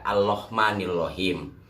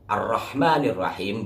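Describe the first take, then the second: First: The opening sound is an L instead of R. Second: The opening sound is a clear R. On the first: The speaker calls it wrong. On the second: The speaker calls it right.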